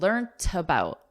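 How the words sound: The word ends with a clear T sound. "Whereas in British English, there's a T, a T sound"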